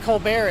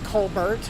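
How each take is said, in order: First: The final t is silent. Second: The final t is pronounced. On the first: This is how the talk show host says the name. "instead of Colbert" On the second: This is how the speaker's family says the name. "we pronounce it uh, the way you see it"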